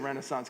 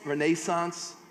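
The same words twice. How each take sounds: First: It is said in the speaker's own usual pronunciation. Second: It is said imitating a South African pronunciation. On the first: "I'm going to say renaissance because I'm butchering it" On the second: "the South African way"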